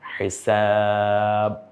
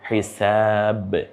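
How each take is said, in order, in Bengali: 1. শেষের b প্রতিধ্বনি ছাড়াই সমান করে থেমে যায়। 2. শেষের b স্পষ্টভাবে ঝাঁকি দিয়ে বেরিয়ে যায়। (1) "এভাবে বললে হয় না" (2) "বরং বটা স্পষ্ট হয়ে যাবে"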